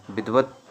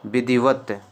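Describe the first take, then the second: First: "विधिवत" squeezed to bidh-vat; shortened form. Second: "विधिवत" with a clear i, bi-dhi-vat; three-syllable form. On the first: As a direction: drop the middle i of "विधिवत". ("विधिवत" को विध्-वत बोलें) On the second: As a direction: sound the middle i of "विधिवत". ("विधिवत" को वि-धि-वत बोलें) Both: Shown as a demonstration. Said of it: "आधा ता आएगा".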